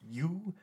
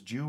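First: The name begins with a Y sound. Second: The name begins with a J sound. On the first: "In a lot of European languages, the J is pronounced with the Y"

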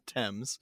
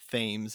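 First: It is said the British way, unlike the spelling. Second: It is said the way the spelling reads. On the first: The speaker calls it right. "and not Thames" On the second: The speaker calls it wrong. "if I said Thames"

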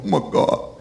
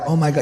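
First: It is said with overwhelmed, intense feeling. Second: It is said flatly, without much feeling. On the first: The speaker calls it right. "You go" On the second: The speaker calls it wrong. "You don't go like"

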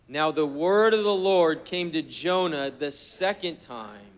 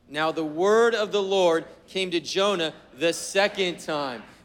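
First: The sentence is read with no special emphasis. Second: "The second time" is strongly emphasized.

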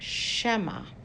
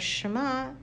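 First: The word ends with an 'eh' vowel. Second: The word ends with a clear 'ah' vowel. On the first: It undermines the meaning of the verse. The speaker calls it wrong. "not to say it as a segel" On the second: It means to hear or listen. The speaker calls it right. "so that we'll read it as Shema"

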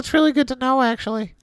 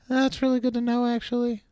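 First: The Marcel voice is said louder. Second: The Marcel voice is said softer.

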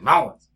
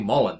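First: The name is said without the L sound. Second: The name is said with a clear L sound. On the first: This is the name as the family says it. The speaker calls it right. "I would say Mullins, because, you know, my family's from Kentucky" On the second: This is the name read as it is spelled. The speaker calls it wrong. "phonically pronounce my last name? ... I never say Mullins"

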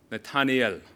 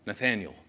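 First: The name is said with a Hebrew pronunciation. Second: The name is said with an English pronunciation. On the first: This is how it is said where the speaker comes from. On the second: This is how the listeners would usually say it.

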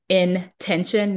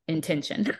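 First: It is said as two words, in tension. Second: It is said as one word, intention. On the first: The title means living within tension. The speaker calls it right. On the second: The title means living with purpose. The speaker calls it wrong. "not intention"

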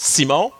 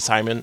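First: The name is said with a French-Canadian pronunciation. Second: The name is said with an English pronunciation. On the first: This is the speaker's own way of saying the name. "this is how I say it in like French-Canadian" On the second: This is an accepted alternative way of saying the name. "You can call me Simon. It's fine"

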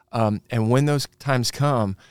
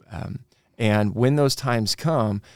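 The two takes are said the same way.

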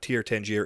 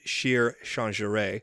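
First: The name begins with a 't' sound. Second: The name begins with a 'sh' sound. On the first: The speaker calls it wrong. "It is not Tyr Tangier" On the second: The speaker calls it right. "that is the correct pronunciation"

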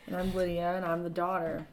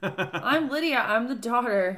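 First: It is said flatly, without enthusiasm. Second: It is said with lively enthusiasm.

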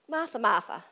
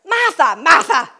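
First: The voice sounds gentle and caring. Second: The voice sounds harsh and scolding. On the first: He is showing her care. "Or are we thinking he's showing her care?" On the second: He is rebuking her. "Are we thinking that Jesus is scolding Martha?"

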